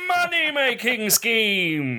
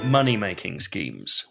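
First: It is said loudly with lots of energy. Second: It is said flatly with low energy.

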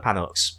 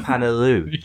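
First: The word ends with a pronounced X sound. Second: The word ends without any X sound. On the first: The speaker calls it wrong. "you've been pronouncing the X" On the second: The speaker calls it right. "It's supposed to be silent"

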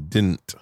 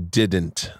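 First: The middle d sound is dropped. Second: The middle d sound is clearly pronounced. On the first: "They don't pronounce the D" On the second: "they don't say didn't"

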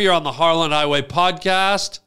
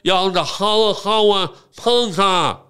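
First: It is said clearly in the speaker's normal voice. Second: It is said with an imitated speech impediment. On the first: "And I can say it clear" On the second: "I can say it with a speech impediment"

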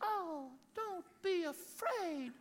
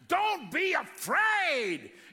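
First: It is said in a soft, gentle way. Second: It is said in a fierce, imposing way.

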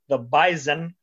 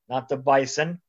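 First: The middle consonant is a z sound. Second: The middle consonant is an s sound. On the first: The speaker calls it right. "I'll make sure I say it correctly" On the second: The speaker calls it wrong.

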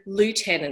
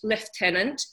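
First: It is said with an American pronunciation. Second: It is said with a British pronunciation.

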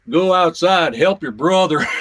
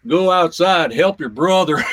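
First: It is said in a Southern drawl. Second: It is said in a Southern drawl.

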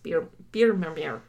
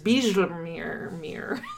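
First: The j is said like an English y. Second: The j is said like an English j. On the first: The speaker calls it right. "a J is pronounced as a Y in Dutch" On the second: The speaker calls it wrong. "otherwise I was thinking it was Bijlmermeer"

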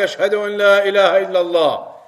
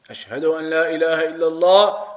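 First: It is said loudly. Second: It is said quietly.

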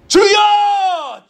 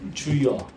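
First: The word is yelled very loudly. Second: The word is said at normal speaking volume.

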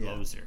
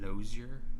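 First: The name gets a plain, everyday pronunciation. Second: The name gets a fancy, stylized pronunciation. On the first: "I always say it Lozier" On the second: "I just decided to do it fancy today"

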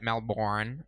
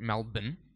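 First: It is said with an American accent. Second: It is said with an Australian accent.

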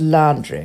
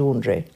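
First: Laundry is said the old-fashioned, posh way. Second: Laundry is said the current, everyday way. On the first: "My grandmother always used to refer to laundry" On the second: "as opposed to laundry"

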